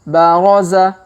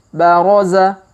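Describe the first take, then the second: Both takes have the same delivery.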